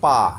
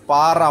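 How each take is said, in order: First: The word ends on a vowel with no r. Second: The word ends with an audible r sound. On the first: The speaker calls it right. "এটার আরের উচ্চারণটা হবে না" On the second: The speaker calls it wrong. "পার আমরা বলি"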